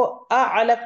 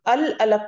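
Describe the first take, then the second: First: "अ अलक" without the l, marked as wrong; wrong form demo. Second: "अल अलक" with the l sounded; lām pronounced. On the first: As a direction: show "अ अलक" as the mistake. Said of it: "नहीं पढ़ूं". ("अ अलक" बिना लाम, ग़लत) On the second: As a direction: read "अल अलक" with a clear lām. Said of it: "अल अलक पढ़ूंगी". ("अल अलक" साफ़ लाम के साथ) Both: Shown as a demonstration.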